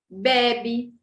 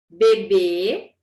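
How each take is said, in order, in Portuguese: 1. A tônica está na primeira sílaba. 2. A tônica está na última sílaba. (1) "um acento mudou completamente a palavra" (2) "Olha a diferença"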